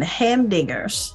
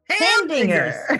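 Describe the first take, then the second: First: The word is said flatly, without excitement. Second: The word is exclaimed loudly and excitedly. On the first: The speaker calls it wrong. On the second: The speaker calls it right.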